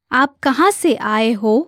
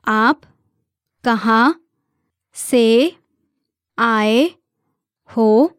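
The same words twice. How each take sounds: First: Said in the usual way. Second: Word by word. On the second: Shown as a demonstration. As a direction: give each word on its own for learners. Teacher breaks question down for learners.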